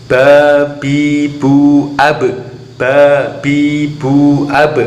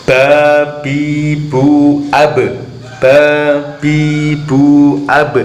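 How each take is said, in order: No difference in how they are said.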